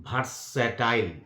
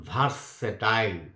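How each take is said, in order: Both takes have the same delivery.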